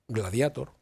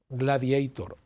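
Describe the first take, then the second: First: The word is pronounced with Spanish sounds. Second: The word is pronounced with English sounds. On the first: The speaker calls it right. "No, no" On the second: The speaker calls it wrong.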